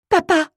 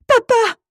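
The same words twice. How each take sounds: First: High, loud cry for her father; screaming. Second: Very high, piercing desperate scream; louder scream. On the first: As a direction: scream out for Dad in terror. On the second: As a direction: shriek it with everything. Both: A narrator's reading. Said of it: "Je cesse mes hurlements".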